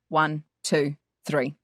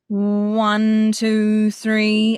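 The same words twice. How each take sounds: First: The numbers are said separately, not flowing. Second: The numbers flow smoothly into one another. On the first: The speaker calls it wrong. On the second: The speaker calls it right. "We're putting in a legato feel, so a flow. So it sounds like this"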